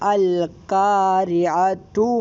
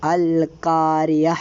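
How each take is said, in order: First: The word ends with a t sound. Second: The word ends with an h sound. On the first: The word is joined to the next word. "ആ ത അൽക്കാരിഅതു മൽക്കാരിയ ത ആയിട്ടാണ് പറഞ്ഞത്" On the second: The reading stops on this word. "ആ തായിനെ ഹ ആയിട്ട് നമ്മൾ നിർത്തണം"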